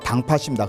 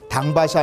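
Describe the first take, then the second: First: The second syllable begins with an aspirated p sound. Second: The second syllable begins with a plain b sound. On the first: The speaker calls it right. "격한 소리로 바뀌어요" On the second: The speaker calls it wrong. "당밭이 아니라"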